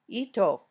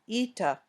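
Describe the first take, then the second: First: An extra "oh" vowel follows the final t. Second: An extra "ah" vowel follows the final t. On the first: "or ito" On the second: "should not sound like ita"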